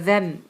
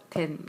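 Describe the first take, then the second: First: "then" with a buzzing voiced th, like a z. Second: "then" starting with a plain hard d, no th; "then" as "den" with a hard d. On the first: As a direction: start "then" with the tongue between the teeth, voiced. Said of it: "z 발음이니까 then". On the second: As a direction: hit "then" with a flat Korean d sound. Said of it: "얘는 그냥 디귿 발음". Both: Shown as a demonstration.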